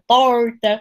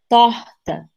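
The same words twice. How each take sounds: First: The R is curled back, retroflex. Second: The R is soft, from the throat.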